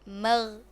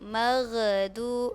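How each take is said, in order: First: The gh sound is held still without bouncing. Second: The gh sound bounces with an added vowel. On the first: The speaker calls it right. "Mesti kita ni baca dengan betul. Jangan dilantunkan" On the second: The speaker calls it wrong. "orang sebut maghdu maghdu itu salah"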